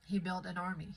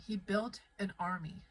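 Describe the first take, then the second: First: Said in the usual way. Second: Emphatic repeat, weight on "built"; stress on BUILT. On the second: Real, not acted. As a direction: hit the word "built" to drive it home.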